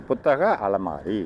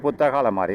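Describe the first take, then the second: First: Slow, low புத்தக அலமாரி, last vowel stretched; slow word joining. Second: Said in the usual way. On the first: Shown as a demonstration. Teacher joining two example words for students, slow demonstration. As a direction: spell out the compound slowly, part by part. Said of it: "அப்ப இது correct". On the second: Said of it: "இது உயிர் எழுத்துல ஆரம்பிக்கிறது".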